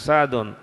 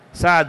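First: The name ends with an -un sound. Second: The name ends with a plain -u sound. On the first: The speaker calls it wrong. "هو شكل لكم سعد، خطأ ولا صواب؟" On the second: The speaker calls it right. "ومنادى يكون مبني على الضم وليس يكون منونا"

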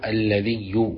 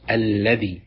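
First: The word ends in a doubled y sound. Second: The word ends in a short i vowel. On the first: "بتشديد الياء" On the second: "بكسر الذال من غير ياء"

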